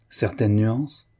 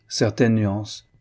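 First: Slow, drawn-out mocking question. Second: Said in the usual way. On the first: A narrator's reading. Christiane mocking her husband's favourite phrase, slow and teasing. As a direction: parody his pet phrase before he says it. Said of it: "Elle dit, moqueuse". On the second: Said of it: "il reprit".

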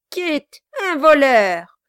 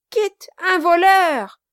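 First: Loud high exclaim; mock outrage. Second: Even higher, louder, jeering shout; gleeful shout. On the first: Quilp cries out over Kit, mock shock. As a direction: feign shock at the news. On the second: Acted. Quilp shouts over Kit's arrest, gleeful. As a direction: crow it to the whole street. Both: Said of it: "s'écria le nain".

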